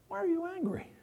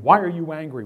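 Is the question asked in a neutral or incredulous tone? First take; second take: incredulous; neutral. First: It is asked in a disbelieving, challenging tone. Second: It is asked as a plain, neutral question.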